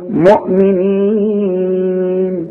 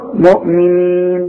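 First: The long vowel is held for four counts. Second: The long vowel is held for two counts. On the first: "واربعه" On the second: "اثنين"

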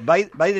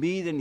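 First: The first vowel is said as 'ai'. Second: The first vowel is said as 'ee'. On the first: This is how the name is said in English. The speaker calls it right. "Biden es la producción en inglés" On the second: This is how people read the name from its spelling. The speaker calls it wrong. "para la gente que no sabe o lo lee en los medios de comunicación"

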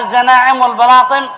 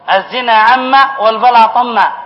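First: The words are run together without a break. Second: The words are read as separate words. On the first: The speaker calls it wrong. "وهو قرأها" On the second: The speaker calls it right. "مكتوب فيها"

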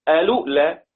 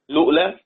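First: The word begins with a vowel before the L. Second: The word begins directly with an L sound. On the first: "على نفس القاعدة" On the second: "فله أن يبدأ بلام مفتوحة، لؤلؤ بلام مضموم قصدي"

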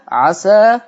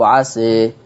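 First: The final vowel is an open a. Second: The final vowel is tilted toward e. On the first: "الفتح" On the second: "التقليل"

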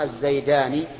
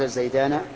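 First: The final n is followed by an i vowel. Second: The final n is followed by an a vowel. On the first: This is the usual form. "ونون ما ثني وملحق به بعكس ذاك" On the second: This is a rare form. "قل من بفتحه نطق"

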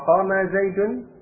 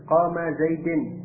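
First: The last word ends with an 'un' sound. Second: The last word ends with an 'in' sound. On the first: The speaker calls it right. "dengan bomah Zaidun, shawabun, benar" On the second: The speaker calls it wrong. "dengan kasrah. ... khata'an, keliru"

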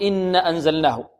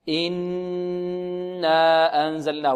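First: The vowel after the doubled n is short. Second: The vowel after the doubled n is long. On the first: The speaker calls it wrong. "لا بد من مد الألف هنا، لا نقول إن أنزلناه" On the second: The speaker calls it right. "إنا نغن ونمد الألف بمقدار حركتين هكذا"

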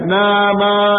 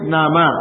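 First: The vowel after the n is drawn out long. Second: The vowel after the n is kept short. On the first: The speaker calls it wrong. "bukan nama" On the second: The speaker calls it right. "Cepat nunnya itu dibaca dengan satu harokat"

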